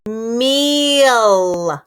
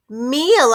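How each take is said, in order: First: Meal drawn out long; stretched word. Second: Meal said short and crisp; quick word. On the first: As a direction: hold the vowel of Meal. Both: Shown as a demonstration. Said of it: "What is it?".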